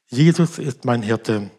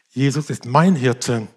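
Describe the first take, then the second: First: The stress falls on the word Jesus. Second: The stress falls on the word mein. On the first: It is this particular person who is the shepherd. "Was bedeutet er mehr?" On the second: The shepherd cares for the speaker personally. "dass er mich persönlich sieht und kennt"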